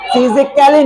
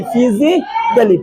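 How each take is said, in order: First: "फिजिकली" with the A voiced as "kailee"; wrong pronunciation. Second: Slow "फिजिकली" ending in short "klee"; silent A. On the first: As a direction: sound an "ai" before the ending of "फिजिकली". ("फिजिकली" में ए की आवाज निकालकर) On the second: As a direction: model "फिजिकली" slowly, no "ai". ("फिजिकली" धीरे, छोटे "कली" के साथ) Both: Shown as a demonstration. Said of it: "फिजिकली नहीं".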